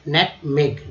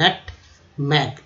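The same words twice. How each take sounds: First: Said in the usual way. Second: नटमेग stretched very slowly as "nut-meg"; slow pronunciation demo. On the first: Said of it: "मेग जी से यहाँ ग बोलेंगे". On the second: Shown as a demonstration. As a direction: draw नटमेग out for learners. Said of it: "N U T, नटमेग". (नटमेग बहुत धीरे बोलें)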